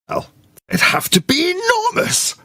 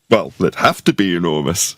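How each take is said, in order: First: The tone sounds doubtful and objecting. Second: The tone sounds accepting, without objection. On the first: The speaker disagrees with the claim. "you can tell from my tone that I object" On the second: The speaker goes along with the claim. "very different meaning depending on how it's said"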